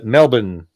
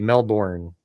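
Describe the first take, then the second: First: The end sounds like 'bun', not as spelled. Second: The end is said fully, like 'bourne'. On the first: "even though it's not spelled that way" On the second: "Like over here, it would be Melbourne"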